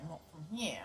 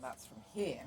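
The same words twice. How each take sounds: First: "here" lifted out of the diaphragm into the nose. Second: "here" spoken low from the stomach; from the diaphragm. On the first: Showing the wrong place to speak from, "here" through the nose. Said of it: "instead of talking through their diaphragms". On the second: Showing where vocal power comes from, "here" low from the diaphragm. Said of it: "talking through their diaphragms or their stomach". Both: Shown as a demonstration.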